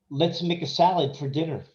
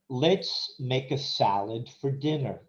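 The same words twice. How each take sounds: First: The sentence is said quickly with a reduced "for". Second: The sentence is said slowly and fully. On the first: "we'll do this slow and quick" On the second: "we'll do this slow and quick"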